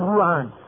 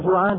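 First: The word begins with a y sound. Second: The word begins with a j sound. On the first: "هذه الجيم بالجيم ياء، يقول مثلا يوعان" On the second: "على جوعان"

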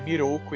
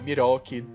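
First: The name ends with an 'oo' vowel. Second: The name ends with an 'ee' vowel. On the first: The speaker calls it right. "o nome do monge tarado é Miroku" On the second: The speaker calls it wrong. "e não Miroki"

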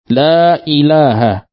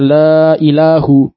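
First: The word ilah ends in an a vowel. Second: The word ilah ends in a u vowel. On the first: The speaker calls it right. "Dibacanya dengan la ilaha, dengan fathah" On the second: The speaker calls it wrong. "tidak boleh dibaca la ilahu"

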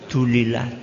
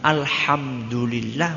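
First: The opening syllables are dropped, leaving only the end. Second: Every syllable of the phrase is said in full. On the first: The speaker calls it wrong. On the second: The speaker calls it right.

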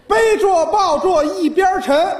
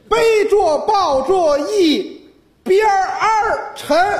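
First: Yi bian is said plainly, without the r-colouring. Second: Yi bian is said with the added r-colouring.

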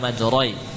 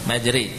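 First: The r is heavy with a rounded vowel. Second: The r is light with an e-like vowel. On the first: The speaker calls it wrong. "Jangan ditebalkan" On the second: The speaker calls it right. "roh menjadi tipis"

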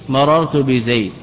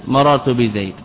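No difference in how they are said.

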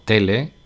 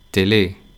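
First: The stress falls on the first syllable. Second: The stress falls on the last syllable.

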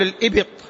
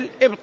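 First: The b is followed by a short vowel. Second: The b is followed by no vowel. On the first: The speaker calls it wrong. "بعضهم يقول الإبط" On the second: The speaker calls it right. "هي الإبط بالإسكان"

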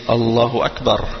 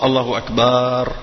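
First: The vowel after the b is kept short. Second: The vowel after the b is drawn out long. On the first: The speaker calls it right. "C'est une fatha et non pas un alif" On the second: The speaker calls it wrong. "C'est pas Allahu Akbar"

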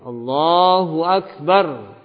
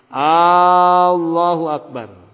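First: No sound is drawn out beyond normal. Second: The first a sound is drawn out long. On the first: The speaker calls it right. "seorang harus belajar nah bagaimana dia bertakbir" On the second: The speaker calls it wrong. "jangan sampai memanjangkan lafaz A-nya"

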